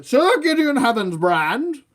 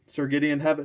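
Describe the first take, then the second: First: Loud, high, drawn-out proclamation; put-on heroic voice. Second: Said in the usual way. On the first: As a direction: proclaim the knight's name grandly, slow and high. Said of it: "still doing this voice".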